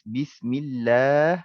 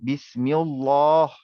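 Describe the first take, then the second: First: The L is said thin and light. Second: The L is said thick and heavy. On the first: The speaker calls it right. "Lah itu nipis" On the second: The speaker calls it wrong. "Lah itu tebal"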